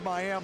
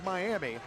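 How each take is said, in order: First: It has the changed local Oklahoma pronunciation. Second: It has the usual, standard pronunciation. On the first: This is how the Oklahoma town is actually called. "but it's Miami, Oklahoma. We sometimes change our pronunciations" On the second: This is how the spelling suggests it. "It's spelled like Miami"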